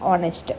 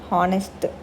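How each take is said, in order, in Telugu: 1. ఈ పదం నేరుగా అచ్చు శబ్దంతో మొదలవుతుంది. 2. ఈ పదం వినిపించే h శబ్దంతో మొదలవుతుంది. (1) "అది ఆనెస్ట్" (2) "హానెస్ట్ కాదు"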